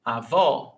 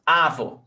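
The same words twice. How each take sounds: First: Avó with the final vó strong; stress on last syllable. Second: Avó wrongly stressed on the a, final vó weak; stress on first syllable. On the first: Teacher showing the accented syllable, Avó stressed at the end. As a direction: hit the second syllable of Avó. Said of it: "it's the one with the accent". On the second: Teacher showing how not to say it, avó stressed at the start. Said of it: "It's not like that". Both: Shown as a demonstration.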